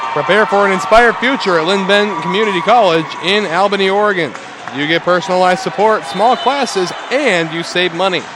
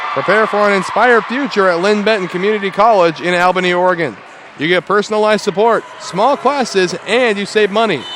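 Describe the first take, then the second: No difference in how they are said.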